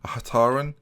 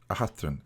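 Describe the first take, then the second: First: A Hataran with a plain t and an added a, rising. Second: A Hathran with a th sound, quiet. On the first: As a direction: say A Hataran, hard t, questioning rise. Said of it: "Is the I silent?". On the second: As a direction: say A Hathran with th, falling. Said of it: "it can't be anything else". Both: Shown as a demonstration.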